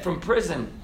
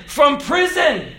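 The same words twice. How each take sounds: First: "from prison" dropped low and soft; quiet repeat. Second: "From prison" proclaimed high and slow; emphatic declaration. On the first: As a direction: let "from prison" sink in softly. Hushed repeat of same phrase. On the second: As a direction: punch out "From prison" slowly, high-pitched. Emphatic first take of repeated phrase. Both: Real, not acted.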